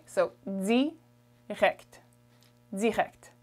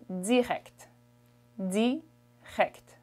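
First: Plain French D on direct; European French pronunciation. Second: Canadian French direct with a buzzing dz, dzirect; Quebec style direct, buzz the D; Canadian French accent. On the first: Teacher returning to the standard French direct. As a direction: direct with a clean French D, dirèct. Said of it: "I'll refer you to the other video". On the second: Teacher showing how French Canadians say direct. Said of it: "the way a Canadian French person would say this is". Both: Shown as a demonstration.

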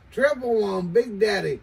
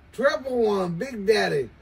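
No difference in how they are said.

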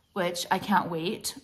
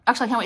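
First: Said in the usual way. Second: "I can't wait" said higher and louder, eager; a louder, higher "actually, I can't wait"; excited correction. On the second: Shown as a demonstration. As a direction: correct yourself with real excitement, raising the pitch on "can't wait". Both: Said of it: "What do you mean I can't wait?".

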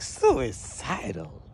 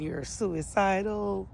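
First: Slow, stretched-out disbelief; acted-out disbelieving question; incredulous echo. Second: Said in the usual way. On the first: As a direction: drag the word out as if stunned. Incredulous echo of officer's accusation.

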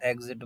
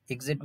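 First: एग्जिट with "e" as in "eg-zit"; e first vowel. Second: एग्जिट with "i" as in "ig-zit"; short-i first vowel. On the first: Teacher telling students the other way people say it, एग्जिट as "eg-zit". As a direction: open एग्जिट on an "e". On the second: Teacher telling students one way people say it, एग्जिट as "ig-zit". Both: Shown as a demonstration. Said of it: "बोलते हैं और एग्जिट बोलते हैं".

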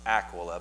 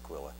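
First: Aquila stressed on the first syllable, AK-wi-la; Aquila with a short A up front, punched; corrected pronunciation. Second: Aquila stressed on the second syllable, a-KWIL-a; Aquila with an unstressed opening vowel; habitual pronunciation. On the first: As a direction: say Aquila as ACK-willa. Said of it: "I think it's actually pronounced". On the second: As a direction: say Aquila as uh-QUILL-uh. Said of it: "I've always pronounced it". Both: Shown as a demonstration.

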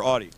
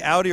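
First: Audi said AW-dee; second pronunciation option. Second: Audi said OW-dee; first pronunciation option. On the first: Host offering the other choice, Audi as AW-dee. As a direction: say Audi with an open "aw", no "ow" glide. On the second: Host asking guest which he says, Audi as OW-dee. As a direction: say Audi with "ow" as in loud. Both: Shown as a demonstration. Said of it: "do you say Audi or Audi".

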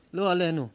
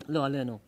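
First: "לא עלינו" again, louder, with the stress punched on "לא"; emphatic repeat. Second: Said in the usual way. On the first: Real, not acted. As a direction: hammer it home a second time. (הדגשה חזקה על "לא" בחזרה)

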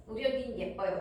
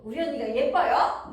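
First: Said in the usual way. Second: Loud question with "예뻐요" raised at the end; question tune. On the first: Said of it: "그런 문장으로 연습해". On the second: Shown as a demonstration. Teacher giving a practice sentence about a sister, "예뻐요" in loud question tune. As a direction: ask it loudly, pushing up "예뻐요". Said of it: "비동사 물어보는 말 만들기".

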